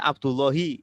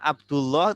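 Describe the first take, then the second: First: The word ends with a pronounced final 'i'. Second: The final vowel is dropped, ending on 'h'. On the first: The speaker calls it right. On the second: The speaker calls it wrong. "tidak boleh"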